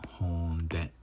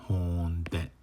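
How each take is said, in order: The two takes are said the same way.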